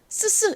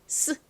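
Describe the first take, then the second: First: The s sound is said twice, separately. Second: The s sound is said once, merged. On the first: The speaker calls it wrong. "이게 아니고요" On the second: The speaker calls it right. "그냥 합쳐서 스 소리로 발음을 해주시면 돼요"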